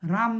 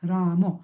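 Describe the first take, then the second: First: The final short vowel is dropped. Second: The final short vowel is fully pronounced. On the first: The speaker calls it wrong. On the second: The speaker calls it right.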